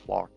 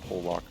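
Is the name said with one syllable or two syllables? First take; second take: one syllable; two syllables. First: The name is said with one syllable. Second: The name is said with two syllables. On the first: The speaker calls it right. "Plok, not Polak" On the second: The speaker calls it wrong. "not Polak"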